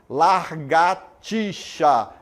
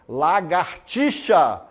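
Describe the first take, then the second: First: The word starts with larg, an r after la. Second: The word starts with lag, no r after la. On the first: The speaker calls it wrong. "em vez de largatixa" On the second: The speaker calls it right. "Lagartixa em vez de"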